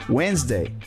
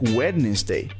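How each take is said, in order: First: The word is said with two syllables. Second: The word is said with three syllables. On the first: The speaker calls it right. "it's just two syllables" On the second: The speaker calls it wrong. "If you read it the way it's spelled, it sounds like Wednesday"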